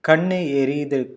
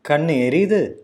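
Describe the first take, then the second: First: The voice falls at the end. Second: The voice rises at the end. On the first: It states that the eyes are burning. "means the eyes are burning" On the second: It asks whether the eyes are burning. "use a rising intonation to mean it as a question"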